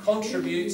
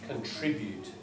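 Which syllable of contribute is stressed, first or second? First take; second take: first; second. First: The stress is on the first syllable. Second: The stress is on the second syllable. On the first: The speaker calls it wrong. "some people will say that, some natives say it. I think if you look in Oxford, it's not correct" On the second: The speaker calls it right.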